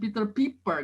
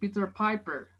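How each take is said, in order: First: The p sounds like a plain Indonesian p. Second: The p sounds like the English p. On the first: The speaker calls it wrong. "Bukan Peter Piper" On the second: The speaker calls it right. "tapi Peter Piper. Karena dia tujuannya ngelatih bunyi p"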